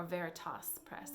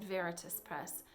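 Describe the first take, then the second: First: Veritas with an open last syllable, "toss"; corrected pronunciation. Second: Veritas with a weak last syllable, like "tuss"; first pronunciation. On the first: Correcting the publisher's name for homeschoolers, Veritas ending in "toss". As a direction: say Veritas as "VER-i-toss", full final vowel. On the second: Naming a publisher to homeschoolers, Veritas with reduced ending. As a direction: say Veritas ending in an unstressed schwa plus s. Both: Shown as a demonstration. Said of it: "how you pronounce it".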